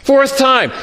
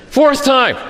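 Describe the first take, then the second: First: Fourth hit again, higher; stress on fourth. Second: Fourth punched, falling; stress on fourth. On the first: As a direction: hammer the word Fourth. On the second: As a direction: lean hard on Fourth. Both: Shown as a demonstration.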